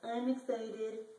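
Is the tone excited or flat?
flat. It is said flatly, without excitement.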